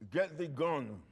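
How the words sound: It is said with real anger.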